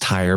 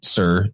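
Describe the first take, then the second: First: The word begins with a T sound. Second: The word begins with an S sound. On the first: The speaker calls it wrong. "which people pronounce as Tyre" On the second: The speaker calls it right. "but it's actually Sir"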